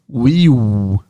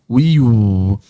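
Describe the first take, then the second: The two takes are said the same way.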